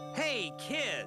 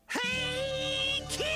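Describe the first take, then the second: First: It is read flatly, without emotion. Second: It is shouted with emotion, like Binky.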